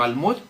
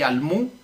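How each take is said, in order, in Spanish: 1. La palabra termina con el sonido final d. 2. La palabra termina sin el sonido final d. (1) "sino almud" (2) "no así almú, como dijo él"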